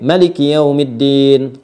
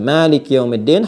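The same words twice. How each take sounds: First: The first vowel of Maliki is kept short. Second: The first vowel of Maliki is held long. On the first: It follows the reading of Qalun or Warsh from Nafi'. "Bisa dibaca pendek" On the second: It follows the reading of Hafs from Asim. "Hafaz an Asim"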